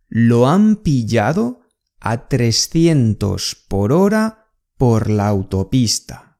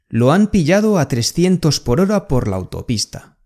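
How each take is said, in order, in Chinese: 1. 这句话说得更慢，也更仔细。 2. 这句话是以平常说话的速度说的。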